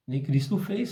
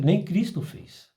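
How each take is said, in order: First: Said in the usual way. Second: Lightly voiced spirit guide, slowed down; a hint of an old caboclo spirit warning, unhurried. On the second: Guide spirit warning the medium, a lightly voiced slow caution. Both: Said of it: "ele fala".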